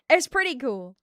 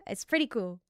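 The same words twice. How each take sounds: First: Projected news anchor delivery; newscaster voice. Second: Said in the usual way. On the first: Shown as a demonstration. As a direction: turn on the newscaster voice. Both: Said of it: "I can turn on, like, that voice".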